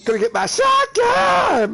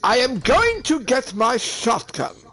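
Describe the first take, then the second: First: It is said in a casual everyday voice. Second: It is said in a formal reading voice.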